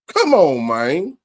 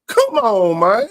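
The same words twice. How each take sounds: First: It is said in the speaker's ordinary voice. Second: It is said in an exaggerated character voice.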